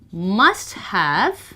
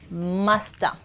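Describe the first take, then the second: First: Both words are said in full, clearly separated. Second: The words blend into one reduced word. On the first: "must have becomes musta" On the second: "becomes musta"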